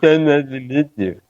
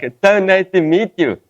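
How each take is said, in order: First: It is said in an irritated, annoyed tone. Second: It is said in a friendly, nice tone.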